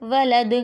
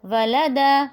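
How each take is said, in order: First: ولد with the final د bounced as a qalqala echo; qalqala on dal. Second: Said in the usual way. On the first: Shown as a demonstration. Teacher shows a child the qalqala on the dal of ولد. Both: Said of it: "اس پہ قلقلہ کریں گے".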